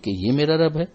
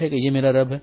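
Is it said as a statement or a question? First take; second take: question; statement. First: It is said with a questioning tune. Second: It is said as a flat statement.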